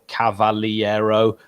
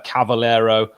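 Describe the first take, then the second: First: The name is said with every syllable included. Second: The name is said with fewer syllables.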